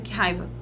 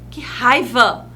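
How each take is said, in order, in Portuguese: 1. É dito de forma neutra, sem energia exclamativa. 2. É dito com energia forte, exclamativa. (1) "Fica muito sem graça" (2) "Eu exclamei"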